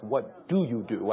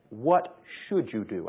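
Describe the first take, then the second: First: Said in the usual way. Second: Slow, SHOULD leaned on; stress on SHOULD. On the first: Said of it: "I don't ask". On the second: Shown as a demonstration. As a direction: press the word should to ask the right question. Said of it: "I ask".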